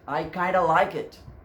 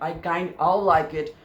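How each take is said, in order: First: 'Kind of' is blended into one word, 'kinda'. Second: Both words 'kind of' are said separately. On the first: "you may say that I kinda like it" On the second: "Instead of saying that"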